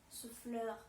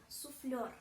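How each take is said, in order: The two takes are said the same way.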